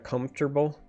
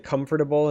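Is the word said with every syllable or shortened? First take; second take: shortened; every syllable. First: The word is shortened with syllables reduced. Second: Every syllable of the word is pronounced fully. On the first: It is the way other people say it. The speaker calls it wrong. "instead of comfortable" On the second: It follows the written form of the word. The speaker calls it right. "I say comfortable ... that's the way the word is spelled"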